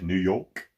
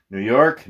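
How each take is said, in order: First: New York as New Yoke, softer, with no r. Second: Said in the usual way. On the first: Shown as a demonstration. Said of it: "it's not York". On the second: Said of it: "it's New York".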